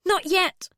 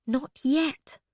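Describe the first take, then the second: First: Pitched up, pressing the refusal; high urgent refusal. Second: Said in the usual way. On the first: Acted. Bee refusing Kurf's offer, high and urgent. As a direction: cut him off, high and urgent.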